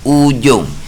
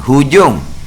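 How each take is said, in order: First: The word begins directly with a vowel, no h. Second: The word begins with an h sound. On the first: It follows the old Jawi spelling in the book. "Dia bukan dengan he, dengan hamzah, dengan alif" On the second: It follows the Rumi spelling. "Rumi tulis hujung"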